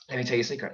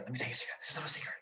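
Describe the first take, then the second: First: Said in the usual way. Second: Soft unvoiced secret whisper. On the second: Shown as a demonstration.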